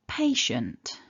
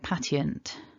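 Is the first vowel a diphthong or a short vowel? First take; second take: diphthong; short. First: The first vowel is a gliding double vowel. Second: The first vowel is a short single vowel. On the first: The speaker calls it right. "stressing syllable one" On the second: The speaker calls it wrong. "the main mispronunciation of this word"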